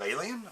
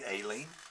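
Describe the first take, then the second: First: It is said with a standard pronunciation. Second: It is said with a Southern Illinois pronunciation.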